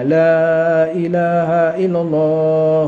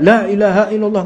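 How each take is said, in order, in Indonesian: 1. Bunyi 'la' di awal dibaca panjang. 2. Bunyi 'la' di awal dibaca pendek. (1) "agak panjang huruf lamnya" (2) "Kok enggak"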